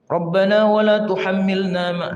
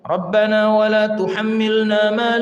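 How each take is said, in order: First: It is rushed and the nasal hum is dropped. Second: It is unhurried and the nasal hum is held. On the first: The speaker calls it wrong. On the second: The speaker calls it right.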